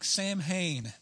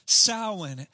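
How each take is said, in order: First: It is read as spelled, like sam-hane. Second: It is said like sow-in. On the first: The speaker calls it wrong. "to a Texan, that looks like" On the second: The speaker calls it right. "it's pronounced"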